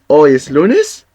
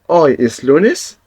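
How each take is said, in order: No difference in how they are said.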